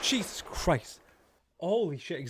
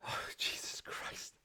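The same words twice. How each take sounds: First: Sudden loud, higher shout of fright; startled cry. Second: Slow, breathless whisper after a fright; shaken whisper. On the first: Streamer jolted by a jump scare, crying out loud. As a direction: blurt it out in real shock. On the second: Streamer catching breath after the scare, whispering. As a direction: let it out on an exhale, still rattled. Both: Real, not acted.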